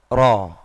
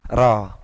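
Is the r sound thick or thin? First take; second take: thick; thin. First: The r is thick, tongue pulled back. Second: The r is thin, tongue at the front. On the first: "Sedikit ke belakang lidahnya" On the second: "ro itu biasa. Ro di depan"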